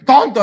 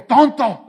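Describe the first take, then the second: First: Much higher and louder yelled insult; shouted TONTO, full caps; louder mock angry shout. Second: Higher, punched insult; mock furious TONTO in capitals; mock angry shout. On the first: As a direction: yell it like a text in capitals. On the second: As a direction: snap it out like an all-caps text. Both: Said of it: "así, mayúsculas".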